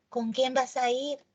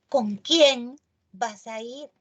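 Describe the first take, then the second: First: Said in the usual way. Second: Slow, with "quién" clearly stressed and rising. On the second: Shown as a demonstration. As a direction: hit "quién" hard and draw the question out. (énfasis en "quién", despacio) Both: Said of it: "lleva tilde porque tiene énfasis".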